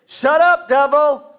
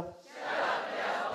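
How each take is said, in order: First: Shouted high and loud, Shut up, devil; loud rebuke. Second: Quiet echo. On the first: Shown as a demonstration. Preacher shows the crowd how to rebuke the devil, loud. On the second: Acted. Congregation repeats after preacher.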